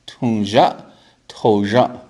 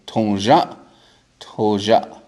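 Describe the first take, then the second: No difference in how they are said.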